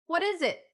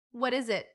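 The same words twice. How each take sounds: First: High-pitched curious exclamation; excited boyish curiosity, narrated; exclaimed. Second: Milder curious exclamation; restrained exclamation of curiosity; exclaimed. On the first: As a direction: burst in with an eager high question. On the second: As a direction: ask eagerly, close to usual pitch. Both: A narrator's reading. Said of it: "exclaimed Van".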